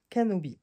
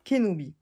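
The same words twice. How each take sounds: First: "Kenobi" said as "Kanobi"; first-syllable slip. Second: "Kenobi" said as "Ké-no-bi"; corrected first syllable. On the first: Naming the Star Wars card, slipping "Kenobi" into "Kanobi". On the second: Correcting the Star Wars name for viewers, "Kenobi" as Ké-no-bi. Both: Real, not acted. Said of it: "Oui, voilà".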